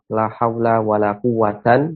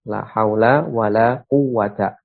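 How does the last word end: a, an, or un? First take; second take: an; a. First: The last word ends in a short a plus n. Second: The last word ends in a plain short a. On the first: "bisa kita baca dengan nasab" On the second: "bisa kita baca dengan mabni pula"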